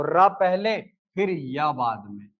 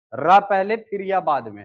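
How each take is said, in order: First: Slow, spelling out र पहले फिर या बाद में word by word; slow classroom emphasis; slow, deliberate teacher repeat. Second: Said in the usual way. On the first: Shown as a demonstration. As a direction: drag it out so students catch the order. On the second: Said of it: "तो र पहले फिर या बाद में".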